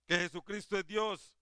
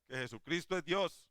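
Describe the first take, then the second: First: Preached louder and higher, leaning on que; a proclaiming preacher's emphatic repeat. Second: Said in the usual way. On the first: Acted. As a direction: drive it home the second time. Preacher repeats key claim louder.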